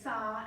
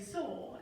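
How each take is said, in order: First: It is said in an American accent, like 'sa'. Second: It is said in a Zimbabwean accent, like 'sore'.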